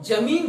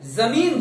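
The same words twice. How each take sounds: First: The word begins with a plain j sound. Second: The word begins with a z sound. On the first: The speaker calls it wrong. "जमीन जो है वो गलत शब्द है" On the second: The speaker calls it right. "जमीन जो है वो सही शब्द है। क्योंकि ज के नीचे जब बिंदु लग जाते हैं"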